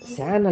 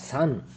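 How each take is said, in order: First: It begins with a 'sy' glide sound. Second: It begins with a plain 's' sound. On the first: The speaker calls it wrong. "ಸ್ಯಾನ್ ಅಲ್ಲ" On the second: The speaker calls it right.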